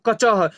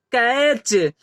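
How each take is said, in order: First: कचह read as separate ka-cha-ha; wrong literal reading. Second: कैच as one word ending in a ch sound; correct pronunciation. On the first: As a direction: sound out every letter in कचह, ending on a voiced ह. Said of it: "इसे हम लोग ये नहीं पढ़ेंगे". (कचह को अक्षर-अक्षर पढ़कर, अंत में ह बोलते हुए) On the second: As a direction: say कैच with CH blended into च, no ह. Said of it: "इसे हम लोग क्या पढ़ेंगे". (कैच को एक शब्द में, अंत में च की ध्वनि के साथ) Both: Shown as a demonstration.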